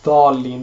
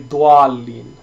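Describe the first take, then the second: First: No glide follows the first consonant. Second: A w-like glide follows the first consonant. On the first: The speaker calls it right. "it's just dhalin because there is a fatha on top of it" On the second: The speaker calls it wrong. "They they add a u sound into it"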